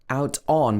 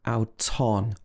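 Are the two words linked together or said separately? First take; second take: separate; linked. First: The two words are said separately. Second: The t links onto the next word.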